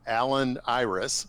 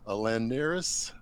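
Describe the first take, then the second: First: The second part begins with a vowel sound. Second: The second part begins with an N sound. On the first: The speaker calls it wrong. "no, that's not how it's pronounced" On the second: The speaker calls it right. "It's uh"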